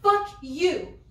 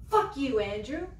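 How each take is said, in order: First: "Fuck you" flung out louder and higher, rising on "Fuck"; louder curse. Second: Firm curse. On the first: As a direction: repeat "Fuck you" harder, really meaning it. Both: Acted. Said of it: "I mean it".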